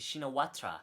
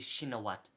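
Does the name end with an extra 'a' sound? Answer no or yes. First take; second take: yes; no. First: The name ends with an extra final 'a' sound. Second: The name ends without any final 'a' sound. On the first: This is a reading of the English spelling. The speaker calls it wrong. "If you're going to read this word, it's going to be Shinawatra" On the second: This is how Thai people say the name. The speaker calls it right. "the actual last name would be Shinawat... no A at the end"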